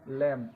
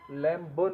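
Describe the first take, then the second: First: The word ends on m with no b. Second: The word ends with an audible b sound. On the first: The speaker calls it right. "इसको लैम बोला जाता है" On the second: The speaker calls it wrong. "लैम ब नहीं बोलेंगे इसको"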